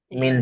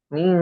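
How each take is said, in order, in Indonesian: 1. Bunyi n diucapkan penuh dan jelas. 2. Bunyi n disamarkan dan dilunakkan. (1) "Kalau izhar itu kan jelas ya" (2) "bukan bukan ming tapi ming ming kayak itu"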